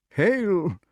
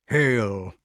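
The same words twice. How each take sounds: First: High echo of a greeting; high-pitched kingly salutation; dotty king. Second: Even, weighty greeting; measured salutation in the usual pitch; solemn wizard. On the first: Pellinore echoes Merlin's greeting. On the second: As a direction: intone it gravely as a magician. Merlin's greeting, echoed by others. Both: Acted.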